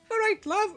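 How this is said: It is said in a high-pitched voice.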